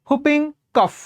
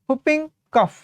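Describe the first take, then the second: The two takes are said the same way.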